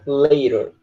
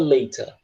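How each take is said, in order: First: The t sounds like a quick r. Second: The t is a clear t sound. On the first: "se tu quiser pronunciar que nem americano" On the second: "Se quiser pronunciar igual britânico"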